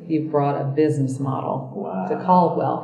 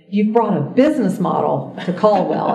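First: It sounds scornful and dismayed. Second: It sounds pleased and admiring. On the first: The college has sunk to its lowest point. "And it was like, and this is the lowest point we've ever sunk to" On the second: The change is welcome at last. "the inflection was very different. ... And it was like, finally, wow"

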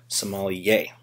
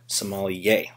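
First: The word is pronounced in a French way. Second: The word is pronounced in a French way.

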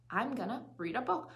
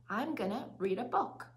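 The two takes are said the same way.

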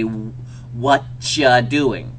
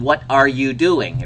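First: The opening words blend into one word, whatcha. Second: Every word is said fully and separately. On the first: "when you do it in phonetics, it would be" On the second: "I'd write that up on the board"

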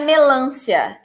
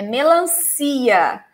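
First: The stress falls on the syllable 'lan'. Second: The stress falls on the syllable 'ci'. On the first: The speaker calls it wrong. "Não é melância" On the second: The speaker calls it right. "é melancia. The stressed syllable is the last one"

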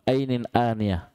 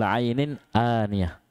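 First: Both words begin with a plain glottal stop. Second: Only the first word begins with ain. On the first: The speaker calls it wrong. "hamzah hamzah juga salah" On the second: The speaker calls it right. "Yang betul ainin aniyah. Ain baru ham hamzah"

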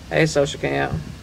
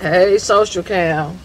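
First: The greeting is plain and lacks enthusiasm. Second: The greeting is loud and full of enthusiasm. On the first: The speaker does not really mean it. The speaker calls it wrong. "You can't just say" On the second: The speaker truly loves it. The speaker calls it right. "You gotta say it with authority, like you love it, like you mean it"

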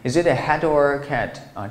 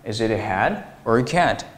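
First: 'Hat' runs straight into 'or' without pause. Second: There is a short pause after 'hat'. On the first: The speaker calls it wrong. "但是我们不要把它读成" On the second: The speaker calls it right. "你是不是会在这个地方有个停顿呢？"

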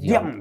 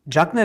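First: The name begins with a 'd' sound. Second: The name begins with a 'j' sound. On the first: The speaker calls it right. "Dian dedi böyle" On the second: The speaker calls it wrong. "Senegal'de dedi böyle Cagney diye bir şey yok dedi"

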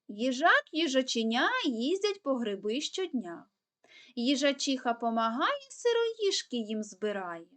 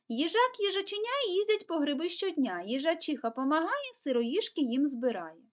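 First: It is said at an even faster pace. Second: It is said at the fastest pace. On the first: "тепер ще швидше" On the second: "Тепер пробуємо ще швидше"

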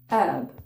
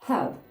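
First: The word starts with no h sound. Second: The word starts with an audible h sound. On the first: This is the American pronunciation. "американці не вимовляють. Вони кажуть herb" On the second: This is the British pronunciation. "Британці вимовляють H"

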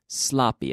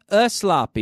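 First: The word starts directly with the s sound. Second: An extra vowel sound comes before the s. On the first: The speaker calls it right. "No, no, no. Sloppy. It starts with the mouth" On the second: The speaker calls it wrong. "not a sloppy... I hate that. It bothers me when I hear people say before an S"

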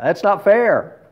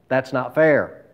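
First: It is said with forceful, exclamatory energy. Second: It is said in a plain, even voice.

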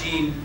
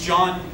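First: The name is said with a 'j' sound and an 'ee' vowel, like 'Gene'. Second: The name is said with a 'j' sound and an 'ah' vowel, like 'John'. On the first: This is how other people wrongly say the name. The speaker calls it wrong. "not Gene" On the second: This is how the speaker's own name is really said. The speaker calls it right. "My name is John"

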